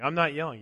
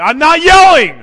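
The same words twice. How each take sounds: First: Said in the usual way. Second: Very loud, high-pitched hammed-up shout; mock furious yell. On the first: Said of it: "Why are you yelling". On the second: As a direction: bellow the denial at full volume, for comedy. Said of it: "guess I'm yelling".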